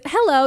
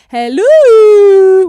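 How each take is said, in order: First: It is said flatly and briefly. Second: It is said long and excitedly.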